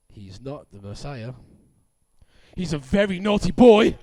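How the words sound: It is read like a shocking soap opera reveal.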